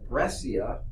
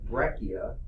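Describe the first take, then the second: First: The c is pronounced as a soft sound. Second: The c is pronounced as a hard sound. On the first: It does not suggest angular fragments. "that's softer sounding" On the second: It suggests angular fragments. "because that's a hard C"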